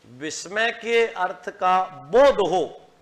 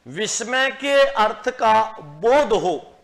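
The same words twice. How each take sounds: The two takes are said the same way.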